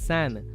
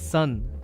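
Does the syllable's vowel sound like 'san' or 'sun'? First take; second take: san; sun. First: The vowel sounds like the one in 'san'. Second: The vowel sounds like the one in 'sun'. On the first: It follows the written spelling. The speaker calls it wrong. "the spelling is S A N, so it comes as San" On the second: It is how the name is really said. The speaker calls it right. "it's actually pronounced as Sun"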